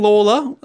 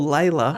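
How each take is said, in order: First: The first syllable sounds like 'law'. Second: The first syllable sounds like 'lay'. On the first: This is how the man's name was said in his time. The speaker calls it right. "I'm saying Lawler" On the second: This is how the suburb named after him is said now. The speaker calls it wrong. "the suburb that we call Layla"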